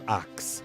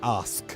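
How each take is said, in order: First: The word ends with a k then s sound. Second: The word ends with an s then k sound. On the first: The speaker calls it wrong. "not ax" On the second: The speaker calls it right.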